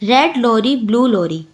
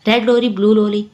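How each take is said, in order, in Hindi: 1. यह वाक्यांश धीरे और ध्यान से बोला गया है। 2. यह वाक्यांश थोड़ा तेज़ बोला गया है। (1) "धीरे धीरे पढ़ा हमने" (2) "फिर थोड़ा जल्दी पढ़ेंगे"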